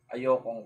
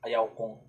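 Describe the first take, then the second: First: It is said as one contracted word. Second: It is said as two separate full words. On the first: The speaker calls it right. "para maganda siya pakinggan" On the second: The speaker calls it wrong. "Pangit pakinggan pag ayaw kong"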